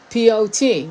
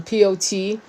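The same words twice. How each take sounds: First: "P O T" spelled again, louder and pitched up; emphatic repeat. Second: Said in the usual way. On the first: Real, not acted. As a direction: hammer each letter of "P O T" louder. Repeats spelling with more weight.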